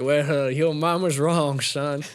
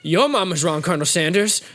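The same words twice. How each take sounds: First: Slow, lightly put-on professor voice; Colonel Sanders. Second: Lightly acted comic comeback; Waterboy. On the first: Professor correcting student after class chuckles, slow mild put-down. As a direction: correct him slowly and condescendingly. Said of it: "they're like". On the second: Student retorting to professor, mildly indignant impression. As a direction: throw it back in a put-on simpleton voice. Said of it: "And he's like".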